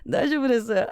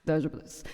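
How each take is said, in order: First: It is said in a light, easygoing voice. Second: It is said in a deep, serious voice. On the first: It hurts, but it is really fine. "normal user" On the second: The speaker is annoyed and wants no more talk. "deep voice staring at them ... like the serious mood"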